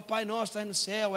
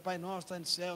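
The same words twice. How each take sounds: First: Put-on father leading children in prayer, line by line; lightly acted prayer leader. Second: Lightly imitated children echoing the prayer; children repeating prayer. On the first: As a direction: say it out firmly for the kids to repeat. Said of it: "Eu falo, ... elas repetem". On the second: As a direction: repeat it back dutifully, as kids do. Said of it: "elas repetem".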